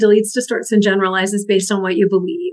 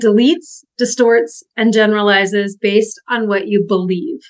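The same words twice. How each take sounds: First: The sentence is spoken at a fast pace. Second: The sentence is spoken at a slower pace.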